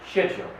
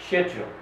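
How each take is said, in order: No difference in how they are said.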